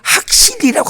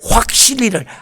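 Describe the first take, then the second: First: The first syllable is pronounced hak, without a w glide. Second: The first syllable is pronounced hwak, with a w glide. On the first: The speaker calls it wrong. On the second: The speaker calls it right.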